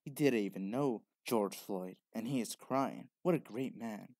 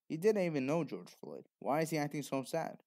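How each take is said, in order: First: Gushing praise, played as silly; mock admiring quote. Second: Doubtful, questioning tone; skeptical retort. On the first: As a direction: imitate a naive fan in awe. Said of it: "makes people say dumb stuff like". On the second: Retold or imitated. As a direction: call out the fake grief. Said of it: "When they should be saying".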